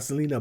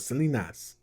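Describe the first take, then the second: First: Said in the usual way. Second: "Selenas" said with an added s at the end; Selenas with final s. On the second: Shown as a demonstration. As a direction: add an s to the name: "Selenas". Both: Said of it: "they would say Selenas".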